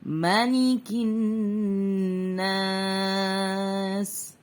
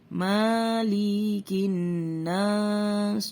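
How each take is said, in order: First: The vowel after the m is kept short. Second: The vowel after the m is drawn out long. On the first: The speaker calls it right. "Kita mengikuti bacaan yang dibaca pendek" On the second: The speaker calls it wrong. "Biasanya orang dibaca panjang"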